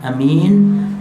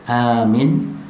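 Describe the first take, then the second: First: The first vowel is short, the second long. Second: The first vowel is drawn out long. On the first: It means trustworthy. "hamzahnya pendek, kemudian min panjang" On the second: It means safe. "amin dengan hamzahnya dipanjangkan"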